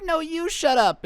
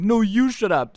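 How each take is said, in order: First: Much higher, slow petulant whine; a bratty kid throwing a tantrum, pitched way up; hissy fit. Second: Angry retort. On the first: Kid snaps back at the class in a high, slow whine. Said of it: "he throws a little hissy fit and is like". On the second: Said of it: "angry and be like". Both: Retold or imitated.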